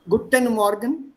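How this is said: Indian accent, every letter of the ending pronounced. "Because in Hindi we pronounce almost every letter"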